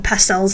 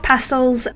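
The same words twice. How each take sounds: First: The word is said in an American way. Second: The word is said in a non-American way.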